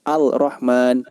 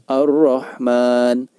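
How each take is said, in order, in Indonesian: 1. Huruf L dibaca jelas sebelum R. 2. Huruf L menyatu ke dalam R yang ganda. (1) "tidak demikian" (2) "alnya tidak terbaca"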